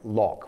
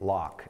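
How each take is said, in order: First: It is said in a non-American accent. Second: It is said in an American accent.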